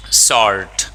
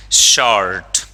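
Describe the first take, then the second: First: "शॉर्ट" said as sort, with an s; "शॉर्ट" beginning with a plain s. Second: "शॉर्ट" said as short, with a clear sh; "शॉर्ट" beginning with sh. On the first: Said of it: "एस O R T". ("शॉर्ट" को स से, यानी sort) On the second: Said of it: "शॉर्टेज means कमी". ("शॉर्ट" को श से, यानी short) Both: Shown as a demonstration.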